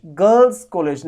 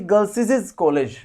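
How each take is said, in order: First: Said in the usual way. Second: Put-on गर्ल्स said as "girl-sis-iz"; wrong stuttered ending, "girlsisiz" for गर्ल्स; doubled s. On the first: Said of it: "ऐसा बोलना सही होता है". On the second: Shown as a demonstration. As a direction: pile extra s syllables onto गर्ल्स. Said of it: "ना कि".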